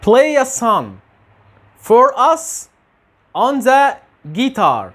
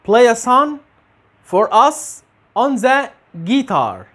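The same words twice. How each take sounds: No difference in how they are said.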